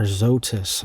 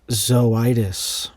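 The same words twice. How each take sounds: First: Zoetis said as "ZOH-tis"; two-syllable Zoetis. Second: Zoetis said as "zoh-EYE-dis"; three-syllable Zoetis. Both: Real, not acted. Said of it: "not sure how to pronounce that".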